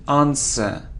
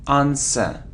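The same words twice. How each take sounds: The two takes are said the same way.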